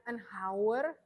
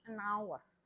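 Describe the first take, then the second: First: The H in hour is sounded. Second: The H in hour is silent. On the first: The speaker calls it wrong. "dia bacanya bukan an hour" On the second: The speaker calls it right. "tapi an hour"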